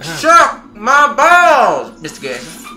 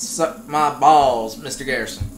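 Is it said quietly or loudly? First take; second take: loudly; quietly. First: It is said loudly. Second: It is said quietly.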